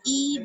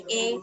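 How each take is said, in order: First: The vowel is a pure high 'ee' sound. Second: The vowel is a mid 'ay' sound. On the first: The speaker calls it right. "इस तरीके से जो पढ़ते हैं ये होता है मारूफ" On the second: The speaker calls it wrong. "और अगर हम इसको ऐसे पढ़ें ... तो ये कहलाता है मजहूल तरीका"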